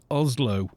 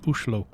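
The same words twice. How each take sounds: First: Oslo with a plain English s and z; English pronunciation. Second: Oslo with sh, Ushlo, the Norwegian way; Norwegian pronunciation. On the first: Streamer to chat, Oslo the English way. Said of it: "they don't say Oslo". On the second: Streamer to chat, Oslo the Norwegian way. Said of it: "they say Oslo". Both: Shown as a demonstration.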